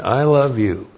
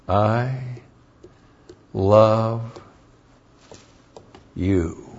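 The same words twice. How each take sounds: First: Said in the usual way. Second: Soft, slow, with a long pause before each word; slow tender I love you. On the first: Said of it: "All right?". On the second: Shown as a demonstration. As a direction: let every word of I love you land on its own, gently. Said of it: "these are dangerous".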